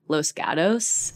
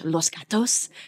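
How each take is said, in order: First: It is said with an American English accent. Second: It is said with a Spanish accent.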